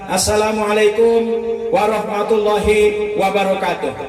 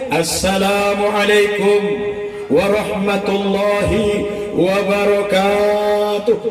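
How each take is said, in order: First: The greeting is said in a plain, ordinary way. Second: The greeting is said in a weighty, authoritative way. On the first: An ordinary opening remark at an event. "R T sambutan" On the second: The speaker wants to look dignified. "salamnya lain, biar sedikit kelihatan wibawanya"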